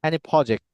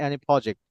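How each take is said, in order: Both takes have the same delivery.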